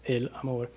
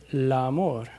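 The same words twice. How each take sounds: First: "el amor" with a clear break between "el" and "amor", English style; words split apart. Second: "el amor" said slowly as one word, "elamor", the l running into the vowel; linked words. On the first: Teacher shows how English speakers split "el amor". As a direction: separate "el" from "amor" with a tiny stop. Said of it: "en inglés siempre queremos dividir las palabras". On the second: Teacher shows Spanish linking, slowly as one word. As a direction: glide "el" straight into "amor" as one slow word. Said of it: "En español muchas veces en la conversación dicen".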